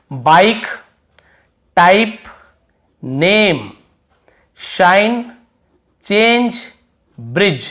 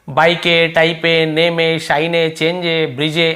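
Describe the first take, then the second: First: Words from बाइक to ब्रिज end on the consonant; बाइक, टाइप, नेम each set apart by pauses, no final vowel; silent final E. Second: टाइप as "taip-e", नेम as "nem-e", run together; wrong sounded final E. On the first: Teacher reading out the list, बाइक to ब्रिज crisp without final E. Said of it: "last में ई को नहीं पढ़ना". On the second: Teacher showing how not to read, बाइक to ब्रिज with final "e". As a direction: add "e" after each word, बाइक as "baik-e". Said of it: "ऐसे तो नहीं पढ़ रहे ना". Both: Shown as a demonstration.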